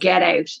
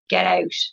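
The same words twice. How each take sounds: First: It is screamed explosively. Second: It is said quietly and flatly.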